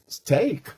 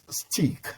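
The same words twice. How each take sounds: First: The vowel rhymes with take. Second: The vowel does not rhyme with take. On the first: The speaker calls it right. "It is steak" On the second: The speaker calls it wrong. "If you've been pronouncing S T E A K as steak, you are wrong"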